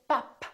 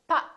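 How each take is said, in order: First: The final p is released. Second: The final p is not released. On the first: The speaker calls it wrong. "I didn't say pop" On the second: The speaker calls it right. "I didn't release my lips. I said pop"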